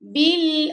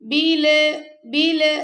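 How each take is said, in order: First: The l sound is held steadily without bouncing. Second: The l sound bounces with an echoing release. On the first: The speaker calls it right. "बिल पकड़ के रखेंगे लाम को" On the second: The speaker calls it wrong. "अगर आप पढ़ेंगे बिल बिल तो ये कलकला हो जाएगा"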